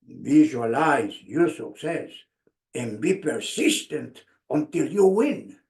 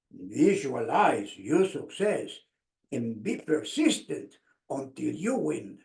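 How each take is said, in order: First: Lower, deliberate quote of the coach; coach's wise advice. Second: Coach's wise advice. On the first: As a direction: recall the coach's words weightily. Coach's words remembered. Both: Retold or imitated.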